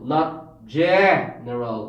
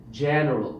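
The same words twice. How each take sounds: First: General said slowly and stiffly; slow exaggerated. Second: Said in the usual way. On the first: Shown as a demonstration. Teacher showing the unnatural way to say general. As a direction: stretch general out too much.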